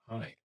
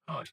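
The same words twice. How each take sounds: First: It is said in a menacing, intimidating way. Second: It is said as a plain friendly greeting. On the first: The speaker wants to frighten the listener. "Or I could intimidate you" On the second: The speaker is simply greeting someone. "just a general greeting"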